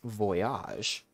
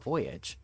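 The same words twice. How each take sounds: First: It is said as in French bon voyage. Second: It is said as the English word voyage. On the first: "what if it's pronounced Voyage? Like Bon Bon Voyage" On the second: "a lot of people were saying ABBA Voyage"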